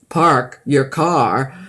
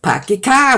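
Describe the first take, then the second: First: It is said in a standard American accent. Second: It is said in a Boston accent.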